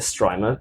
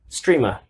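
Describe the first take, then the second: First: The first vowel sounds like the one in stripe. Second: The first vowel sounds like the one in stream. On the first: It reads the spelling like an ordinary English word. "I say a Strimer because S T R I stripe" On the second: The product is meant for streamers. "guess how it was said to me when I went to the booth"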